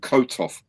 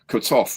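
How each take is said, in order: First: The stress is on the first syllable. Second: The stress is on the second syllable. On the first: "rather than" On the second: "emphasize the second syllable of his name"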